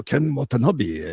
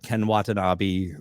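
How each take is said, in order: First: Slow, drawn-out Japanese actor impression; put-on film actor voice with a growled lead-in; Ken Watanabe. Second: Said in the usual way. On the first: Shown as a demonstration. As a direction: say it slowly, higher, in his voice. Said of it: "really cool ones like Ken Watanabe".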